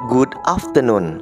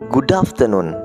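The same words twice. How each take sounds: First: Good and afternoon are said as separate words. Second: Good runs straight into afternoon without a gap. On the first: "ada yang membaca seperti ini" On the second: "Jadi dia sambung saja"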